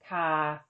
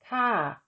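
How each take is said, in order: First: The syllable is said with a mid tone. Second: The syllable is said with a falling tone. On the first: "the tone of an unmarked live syllable is mid" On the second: "With tone mark one, the tone is falling"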